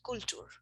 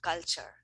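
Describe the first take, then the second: First: The first vowel sounds like a Spanish vowel. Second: The first vowel sounds like an English vowel. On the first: A learner said it this way. The speaker calls it wrong. "one of my students said culture" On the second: This is the expected form. The speaker calls it right. "instead of culture"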